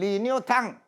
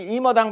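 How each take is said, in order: First: The name is said with a Chinese pronunciation. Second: The name is said with a Korean pronunciation. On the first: "중국 발음은" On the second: "한국 발음은"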